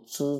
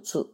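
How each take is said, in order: First: It sounds the same as the word for know. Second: It sounds the same as the word for wisdom. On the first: The person was not known. The speaker calls it wrong. "一读如知字" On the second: The person lacked wisdom. The speaker calls it right. "一读智"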